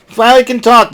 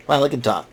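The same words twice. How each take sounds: First: "finally can talk" said higher and louder, amused; excited. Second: Said in the usual way. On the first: Real, not acted. Amazed she spoke at last.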